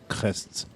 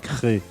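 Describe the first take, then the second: First: The final consonants of the name are pronounced. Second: The final consonants of the name are silent. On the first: The speaker calls it wrong. "I thought it was crests" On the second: The speaker calls it right. "We're in Cré, and it's actually written crests"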